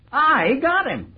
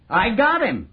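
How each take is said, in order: First: Higher and slower, drawn out with delight; slow gloating repeat; savoring triumph. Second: Gleeful, raised pitch; proud crow of success; triumphant. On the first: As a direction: stretch it out, relishing every word. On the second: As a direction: announce the capture with relish. Triumphant announcement of the capture. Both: Acted.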